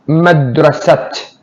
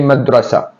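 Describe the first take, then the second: First: The word ends with a clear t sound. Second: The word ends on a vowel, no t. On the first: The speaker calls it wrong. "nobody says madrasat" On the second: The speaker calls it right. "you say madrasa"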